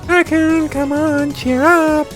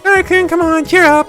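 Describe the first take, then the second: First: It is said in a softer voice. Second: It is said in a normal voice.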